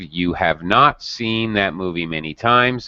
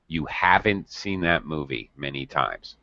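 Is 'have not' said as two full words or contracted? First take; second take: full; contracted. First: Have and not are said as two full words. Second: Have and not are joined into one contracted word. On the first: "using the negative" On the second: "We would create a contraction. Haven't"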